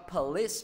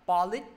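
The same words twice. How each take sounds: First: The word ends with a clear s sound. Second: The word ends without a clear s sound. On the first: The speaker calls it right. "Tiếp tục thầy có police" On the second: The speaker calls it wrong. "chứ thầy không đọc là police"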